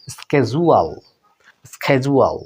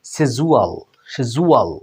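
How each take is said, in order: First: "স্কেজুয়াল" opening on a hard sk; American pronunciation. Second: "সেজুয়াল" as she-ju-al, no k; British pronunciation. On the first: Teacher models American schedule for learners, with sk onset. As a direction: start "স্কেজুয়াল" with sk, then ju-al. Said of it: "American ইংলিশে সেটার উচ্চারণ হয়". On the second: Teacher models British schedule for learners, without the k. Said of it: "ব্রিটিশে এভাবে উচ্চারণ করা হয়". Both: Shown as a demonstration.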